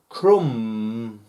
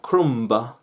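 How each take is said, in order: First: The final B is not pronounced. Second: The final B is clearly pronounced. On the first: The speaker calls it right. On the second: The speaker calls it wrong. "Not crumb"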